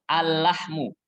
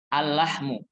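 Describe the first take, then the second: No difference in how they are said.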